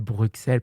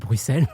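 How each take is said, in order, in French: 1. Le x au milieu se prononce ks. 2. Le x au milieu se prononce s. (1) "parce qu'un X, ça se dit X" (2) "tout le monde disait Bruxelles"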